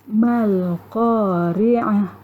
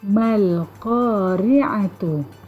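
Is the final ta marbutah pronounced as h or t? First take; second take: h; t. First: The word ends on a soft h-sound. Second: The word ends with a full t-sound and vowel. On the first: "Huruf ta marbutah dibaca seolah-olah ia adalah huruf ha" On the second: "Kalimahnya adalah mal-qari'atu"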